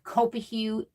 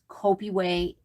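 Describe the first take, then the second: First: The last syllable sounds like 'hoo'. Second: The last syllable sounds like 'way'. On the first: The speaker calls it wrong. "It looks like Copihu. That is not how you say it" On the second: The speaker calls it right. "It is Copiway"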